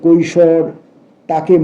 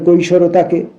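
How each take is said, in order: First: A short pause separates the two words. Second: The two words run together without a pause. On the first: The speaker calls it right. "কিন্তু আছে" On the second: The speaker calls it wrong. "একসঙ্গে যদি পড়ি"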